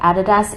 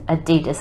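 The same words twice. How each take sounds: First: The word is pronounced the Australian way. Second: The word is pronounced the American way. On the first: "We say Adidas in Australia" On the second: "as the Americans say"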